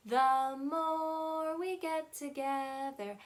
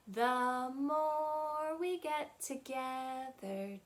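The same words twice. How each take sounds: The two takes are said the same way.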